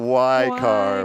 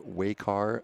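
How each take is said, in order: First: The first syllable sounds like 'why'. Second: The first syllable does not sound like 'why'. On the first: The speaker calls it right. "I know it is it is a Y car" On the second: The speaker calls it wrong. "months of saying it incorrectly"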